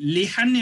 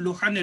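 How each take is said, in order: First: The first vowel sounds like i. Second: The first vowel sounds like u. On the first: "இதுக்கு வந்து லிஹன் என்றும் சொல்லலாம்" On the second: "லுஹன் என்றும் சொல்லலாம்"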